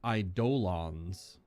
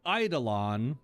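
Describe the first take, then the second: First: The middle 'do' syllable is a full hard 'doe'. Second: The middle 'do' syllable is reduced and soft. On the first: "she pronounced it Eidolons. Hard D O" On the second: "how I've always heard it pronounced"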